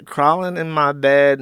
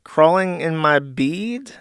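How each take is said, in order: First: "bed" with a short e, steady; corrected reading. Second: "bead" with a long ee, slow, rising; puzzled misreading. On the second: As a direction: read "bead" like a question, slowly. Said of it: "Wait, what?". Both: Real, not acted.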